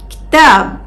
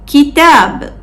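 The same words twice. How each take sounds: First: No vowel follows the first consonant. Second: A clear short vowel follows the first consonant. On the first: This is the dialect form. "we say it with a sukun" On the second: This is the standard form. "with a clear short vowel E at the beginning"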